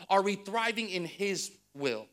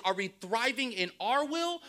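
First: HIS as the weighty answer, ending falling; stress on HIS. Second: OUR set up as the contrast, ending raised; stress on OUR. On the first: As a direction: lean on "his" and let the question fall. Answering half of the contrast. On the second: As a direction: lean on "our" and leave the question hanging. Contrasts our will with his. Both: Real, not acted.

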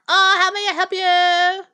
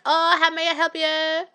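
First: High, slow put-on greeter voice; mocking salon greeter. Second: Lighter, less stretched greeter voice; quick mimic of a salon worker's greeting; salon greeter impression. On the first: Friend mimicking a nail salon greeter, high and slow. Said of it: "and they're like". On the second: Friend redoing the salon greeting, a lighter take. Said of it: "That was pretty good".

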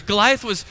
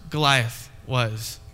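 First: Said in the usual way. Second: Goliath was dropped low and drawn out slowly; dramatic low slow. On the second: Shown as a demonstration. Ominous low, slow emphasis. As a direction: pastor lets Goliath was sink low and slow for effect.

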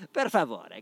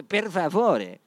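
First: Casual Italian. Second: "Per favore" said louder and higher, with a rolled, drawn-out Italian flourish; emphatic Italian per favore. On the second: Podcaster hams up "Per favore" to sound Italian, louder and higher. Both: Shown as a demonstration. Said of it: "para as pessoas pensarem que eu sou italiano".

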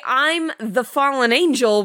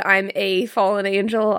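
First: "the" leaned on as the one and only; stress on THE. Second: "a" said as a full "ay"; stress on A. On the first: Objecting to the angel's claim, stress on "the". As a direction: hit "the" hard in "the fallen angel". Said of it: "You don't get to say". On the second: Suggesting what he really said, stress on "a". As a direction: lean on "a", meaning one of many. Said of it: "Maybe he said". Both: Retold or imitated.

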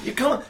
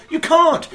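First: Said in the usual way. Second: Mock exasperated. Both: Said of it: "And you go".

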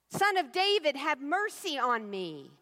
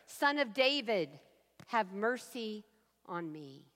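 First: A desperate call that won't be shushed; crying out louder. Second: A pleading prayer that trails off; plaintive cry. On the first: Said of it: "He gets louder". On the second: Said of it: "plaintive cry". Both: Acted.

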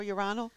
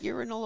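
First: "urinal" as yoo-RYE-nul; second-syllable stress. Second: "Urinal" as YOOR-in-ul; first-syllable stress. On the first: Host asking which is correct, "urinal" said yoo-RYE-nul. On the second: Host asking which is correct, "Urinal" said YOOR-in-ul. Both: Shown as a demonstration. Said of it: "which one is it?".

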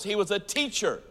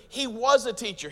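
First: "teacher" carries the main point, "was" unstressed; stress on teacher. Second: "was" punched higher and stronger, against "is"; stress on WAS. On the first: Preacher correcting the idea that Jesus only healed, stress on "teacher". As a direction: land the weight on "teacher". Contrasts past with still and is. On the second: Preacher setting past against present for the congregation, stress on "was". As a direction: hit the word "was" hard. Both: Real, not acted.

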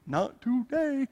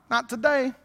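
First: Very slow, softer "Not today"; "Not today" slowly drawn out, teasingly firm; drawn-out refusal. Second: Said in the usual way. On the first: Acted. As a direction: stretch out each syllable of "Not today". Repeats refusal to flesh, drawn out.

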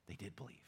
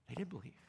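First: Softly, with stress on "did"; hushed emphasis. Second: "did" leaned on with a falling close; stress on did. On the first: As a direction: say "did" gently but firmly, very quietly. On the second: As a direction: pastor repeats that the disciples believed, stressing "did". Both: Real, not acted.

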